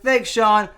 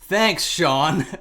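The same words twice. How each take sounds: First: The thanks sounds plain and sincere. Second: The thanks sounds mocking and sarcastic. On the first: The thanks is meant genuinely. "I just started thanking him" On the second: The tweet stated something obvious and was not useful. "it had more of the tone of"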